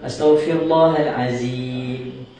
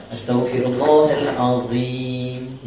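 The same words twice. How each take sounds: First: Astaghfirullahalazim slowly with a z in azim; Astaghfirullahalazim, z instead of dh; wrong pronunciation. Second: Astaghfirullahalazim chanted slowly, tongue out on the dh of azim; correct pronunciation. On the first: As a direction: say azim with a plain z, the mistake. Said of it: "Dia akan jadi zai". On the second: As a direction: recite slowly with dh, not z, in azim. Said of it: "ini sebutan yang betul". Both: Shown as a demonstration.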